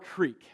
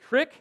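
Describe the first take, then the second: First: The vowel is long, like in 'seek'. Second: The vowel is short, like in 'kick'. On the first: "or creek" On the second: "You can say crick"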